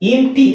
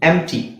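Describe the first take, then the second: First: The first vowel is a short 'i' sound. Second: The first vowel is a short 'e' sound. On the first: The speaker calls it wrong. "ಇಂ ಟಿ ಅಂತ ಹೇಳಲ್ಲ" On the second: The speaker calls it right. "ಇದರ ಉಚ್ಚಾರಣೆ ಏನು ಎಂ ಟಿ"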